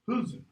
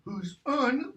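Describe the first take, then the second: First: The final syllable has a schwa vowel. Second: The final syllable has a full vowel. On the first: This is the later form. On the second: This is the older form.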